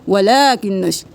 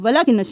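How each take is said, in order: First: The vowel in 'la' is held long. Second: The vowel in 'la' is cut short. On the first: The speaker calls it right. "एक अलिफ के बराबर खींचे" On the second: The speaker calls it wrong. "नहीं करना"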